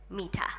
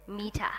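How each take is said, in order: Both takes have the same delivery.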